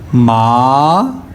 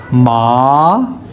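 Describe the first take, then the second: First: The pitch rises from low to high. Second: The same.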